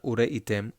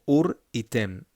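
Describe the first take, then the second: First: Ureitem run together with no break; the rushed, unpaused ureitem; wrong way. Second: Said in the usual way. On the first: Shown as a demonstration. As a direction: ureitem said without the little pause. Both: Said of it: "Not ureitem".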